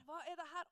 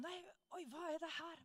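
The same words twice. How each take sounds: First: Softer, higher baffled question; a healed man stunned by his own back, softer and higher; stunned repeat. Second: Softer, higher stunned exclamation; mock astonishment. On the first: Retold or imitated. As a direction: ask it again in disbelief. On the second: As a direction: sound caught off guard by what is happening to you. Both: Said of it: "han var helt sjokka".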